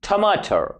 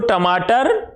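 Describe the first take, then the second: First: The first t sound is aspirated, with breath. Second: The first t sound is plain, without breath. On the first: This is how an English speaker would say it. The speaker calls it wrong. "वो ट के बदले ठ का प्रयोग करता है" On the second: This is the native Hindi pronunciation. The speaker calls it right. "वो टमाटर नहीं बोल पाएगा"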